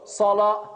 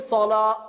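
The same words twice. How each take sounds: First: The word ends with an audible breathy h. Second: The word stops abruptly with no final h. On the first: The speaker calls it right. "il y a le ha, tamarbuta à la fin" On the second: The speaker calls it wrong. "on ne dit pas aussi salah et on bloque"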